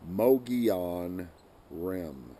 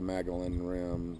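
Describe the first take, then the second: First: The first word sounds like neither Mongolian nor Magellan. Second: The first word sounds like the name Magellan. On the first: The speaker calls it right. "I'll pronounce this properly" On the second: The speaker calls it wrong. "not the Magellan Rim"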